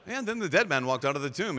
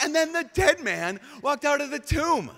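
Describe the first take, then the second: First: Said in the usual way. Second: High, loud, thrilled reading; exclamation mark. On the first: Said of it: "the understatement of the apostles". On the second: Shown as a demonstration. Preacher rereading the verse with full excitement, high and loud. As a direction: read it as the miracle it is. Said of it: "underline, exclamation mark".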